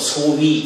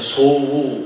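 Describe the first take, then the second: First: The word ends with the glide vowel 'wi'. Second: The word ends with a plain 'u' vowel.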